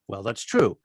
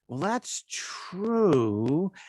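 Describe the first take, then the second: First: It is said in a plain, straightforward tone. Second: It is said hinting at something unsaid.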